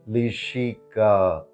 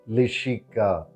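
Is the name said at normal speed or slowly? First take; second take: slowly; normal speed. First: The name is said slowly. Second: The name is said at normal speed.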